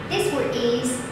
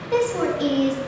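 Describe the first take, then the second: No difference in how they are said.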